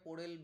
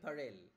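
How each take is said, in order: First: The first vowel is a rounded 'o'. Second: The first vowel is an open 'a'. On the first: This is how Bengali speakers say it. "আমরা বাংলায় ওটাকে পোরেল বলবো" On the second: This is how native English speakers say it. "Native English speakers, তারা বলে"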